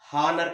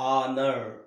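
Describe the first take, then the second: First: The word begins with an audible h sound. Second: The word begins directly with a vowel sound. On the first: The speaker calls it wrong. "హానర్ కాదండి" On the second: The speaker calls it right. "ఆ అనే sound వస్తుంది"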